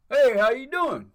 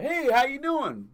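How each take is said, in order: First: High, loud, bright door greeter hello; loiterer greeting. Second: High, loud, slow door greeter hello; loiterer greeting. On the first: Loiterer greets a customer at the store door, loud and high. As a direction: greet him like you work there, loudly. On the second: Man mimics the loiterer greeting him at the door, high and slow. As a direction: stretch out a cheerful fake-employee welcome. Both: Retold or imitated.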